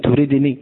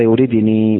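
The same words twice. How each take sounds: First: Said in the usual way. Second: يريدني recited with the final ya kept, ending in a long ee; pausal recitation. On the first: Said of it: "وقفت على كلمة". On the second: Shown as a demonstration. Teacher recites to students يريدني with the ya kept at the stop. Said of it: "تقرأ هكذا".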